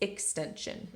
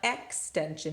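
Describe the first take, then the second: First: The first vowel is reduced to a schwa. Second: The first vowel is a full, clear vowel. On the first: The speaker calls it right. "it's extension" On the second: The speaker calls it wrong. "Now it's not extension"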